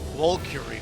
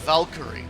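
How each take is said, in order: First: The name is said like 'Valkyrie'. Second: The same.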